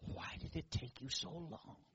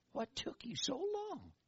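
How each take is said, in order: First: Tiny inner whisper. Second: High, slow little inner voice; a small high inner voice gently teasing; little tiny voice. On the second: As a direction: say it small, high and slowly drawn out. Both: Retold or imitated. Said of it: "this little tiny voice inside".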